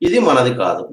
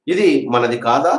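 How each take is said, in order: First: Falling close on "కాదు"; negative statement. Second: Slow, with "కాదా" lifting at the end; questioning rise on "కాదా"; negative question. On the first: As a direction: state it, letting "కాదు" drop at the end. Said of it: "negative sentence అన్నమాట". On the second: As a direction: ask it, raising the pitch on "కాదా". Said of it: "negative interrogative ఏమవుతుంది?". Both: Shown as a demonstration.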